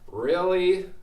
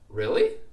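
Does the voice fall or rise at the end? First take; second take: fall; rise. First: The pitch falls at the end. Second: The pitch rises at the end. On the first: The speaker is surprised or disappointed. "It might mean more like I'm surprised or disappointed" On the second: The speaker is asking a question to confirm something. "when I had that rising intonation"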